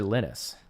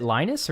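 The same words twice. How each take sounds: First: Linus with a short i, LIN-us; short-i pronunciation. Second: Linus with a long i, LIE-nus; long-i pronunciation. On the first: Streamer offering the other option, Linus said LINN-us. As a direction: say Linus to rhyme with "tin us". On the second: Streamer unsure of the name, Linus said LIE-nus. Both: Shown as a demonstration. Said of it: "is it Linus or Linus".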